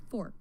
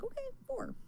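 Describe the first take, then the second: First: Said in the usual way. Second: Much higher, sing-song "Okay, four" in fake agreement; brightly mock the bottle's instruction; mock cheerful. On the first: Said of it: "it says on the bottle". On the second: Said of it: "So I'm like".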